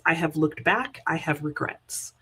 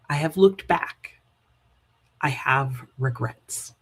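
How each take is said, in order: First: It is read at a normal, unhurried pace. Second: It is read slowly with a long pause.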